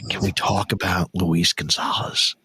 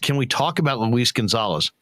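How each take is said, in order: First: It is said in a quiet, hushed whisper. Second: It is said in a normal speaking voice.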